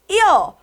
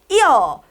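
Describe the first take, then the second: Both takes have the same delivery.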